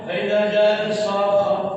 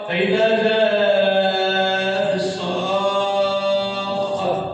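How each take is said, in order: First: The long vowel is held short. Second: The long vowel is held very long. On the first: The speaker calls it wrong. "خطأ" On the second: The speaker calls it right. "لكن الصحيح ستة"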